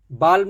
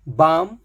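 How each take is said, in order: First: बाल्म with the l said; बाल्म, एल बोलते हुए; wrong l sounded. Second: बाम said baam, no l; बाम, एल नहीं; silent l. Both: Shown as a demonstration. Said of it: "बाल्म नहीं".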